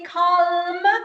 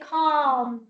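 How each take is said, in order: First: The l is pronounced. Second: The l is silent. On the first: The speaker calls it wrong. "You don't say calm" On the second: The speaker calls it right. "You say calm"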